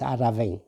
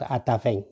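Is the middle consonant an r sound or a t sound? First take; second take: r sound; t sound. First: The middle consonant sounds like an r. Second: The middle consonant sounds like a t. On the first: The speaker calls it right. "it is Araveng" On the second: The speaker calls it wrong. "it is not Ataveng"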